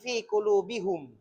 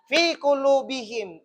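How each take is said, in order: First: The final pronoun is pronounced with a u vowel. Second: The final pronoun is pronounced with an i vowel. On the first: The speaker calls it wrong. "Tidak mengatakan fi kulubihum" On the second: The speaker calls it right.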